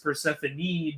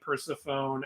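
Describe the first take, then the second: First: The final E sound is clearly pronounced. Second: The final E sound is left silent. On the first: The speaker calls it right. "how much the E is pronounced" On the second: The speaker calls it wrong. "I used to call Persephone Persephone"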